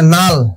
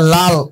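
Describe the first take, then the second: First: The word begins with an n sound. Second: The word begins with an l sound.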